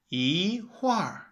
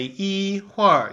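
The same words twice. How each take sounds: First: "yi huar" with yi rising, huar falling; "yi huar" after tone sandhi, rising then falling; second plus fourth tone. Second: "yi huar" with yi high and level, huar falling; "yi huar" without tone sandhi, high then falling; first plus fourth tone. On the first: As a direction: slowly lift "yi", then drop "huar". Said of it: "a second and a fourth". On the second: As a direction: show the unchanged tones: level "yi", falling "huar". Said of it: "you don't say yi huar". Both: Shown as a demonstration.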